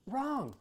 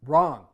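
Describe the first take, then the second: First: High sarcastic wrong. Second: "Wrong." barked out much louder, level pitch; flat loud wrong. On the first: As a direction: sing out "Wrong." up high then drop it. Son contradicting mother again. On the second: Son flatly contradicting mother. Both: Acted.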